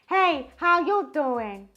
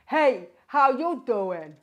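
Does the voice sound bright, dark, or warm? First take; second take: bright; dark. First: The voice sounds bright, thin and intense. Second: The voice sounds dark, deep and rich. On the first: "And then we're going to go for a higher larynx" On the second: "We're going to start out with a lower larynx"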